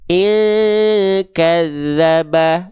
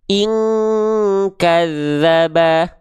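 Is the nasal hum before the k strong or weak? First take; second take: weak; strong. First: The nasal hum is weak, far from 'ng'. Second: The nasal hum is strong, close to 'ng'. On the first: The speaker calls it wrong. "yang satu dengungannya terlalu menjauhi eng" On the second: The speaker calls it right. "yang mendekati eng itu adalah yang jawaban per eh jawaban kedua"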